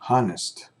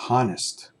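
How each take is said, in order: Both takes have the same delivery.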